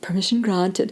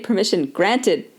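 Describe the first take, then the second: First: It is said in an Australian accent. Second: It is said in a Canadian accent. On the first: "with my best Australian accent" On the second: "we don't say granted in Canada, we say"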